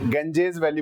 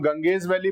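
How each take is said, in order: First: The first syllable sounds like 'genj'. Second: The first syllable sounds like 'gang'. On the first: This is how it is pronounced in many places. "गेंजेज valley बोला जाता है इसको" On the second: This is the everyday way people say it. "हम गंगेज valley बोल रहे हैं"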